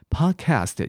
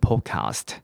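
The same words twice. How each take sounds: First: It is said in an American accent. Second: It is said in a British accent. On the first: "podcast 也是美式英文" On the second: "英式英文是念podcast"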